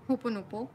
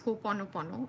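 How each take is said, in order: First: The word ends after the syllable 'po'. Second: The word ends with the syllables 'pono'. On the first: It is a cute nickname form. The speaker calls it wrong. "I like calling it Ho'oponopo, okay, but that's the incorrect pronunciation, but it sounds cuter" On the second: It is the proper full form. The speaker calls it right. "the correct pronunciation is Ho'oponopono"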